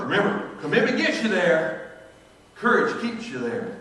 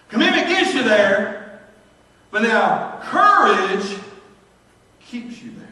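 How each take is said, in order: First: Said in the usual way. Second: Louder, slow and punched, courage stretched out, keeps you there dropped to a breath; emphatic preaching. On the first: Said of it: "maxim repeated in passing". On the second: Shown as a demonstration. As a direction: hammer each word of the maxim. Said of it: "preacher drives home his point".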